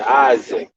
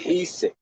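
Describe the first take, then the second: First: The name is said with an American English pronunciation. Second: The name is said with a Mexican Spanish pronunciation. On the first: "Americans, we would say Isaac" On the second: "they say Isik"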